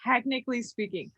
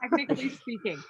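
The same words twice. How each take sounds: First: Said in the usual way. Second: Whispered aside. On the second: Real, not acted.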